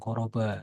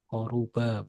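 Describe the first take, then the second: First: The second vowel sounds like 'o'. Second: The second vowel sounds like 'u'. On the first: The speaker calls it wrong. "bukan koroba. Salah lagi" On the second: The speaker calls it right. "Koruba, bukan koroba"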